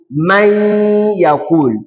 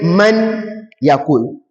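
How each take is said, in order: First: The n merges into the y with nasalization. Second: The n is clearly pronounced before the y. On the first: "inserted directly into this ya ... I will apply that gunna" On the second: "pronounced clearly"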